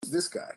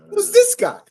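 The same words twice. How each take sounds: First: Replaying own line. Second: Plain question. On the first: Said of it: "Say in the video, I say". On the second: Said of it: "Did I not just say that?". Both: Shown as a demonstration.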